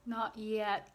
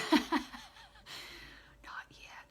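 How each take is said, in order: First: Said in the usual way. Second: Breathy laughing whisper, through tears. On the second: Real, not acted. Medium holding back tears, whispers through a laugh. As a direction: laugh it out under your breath, teary.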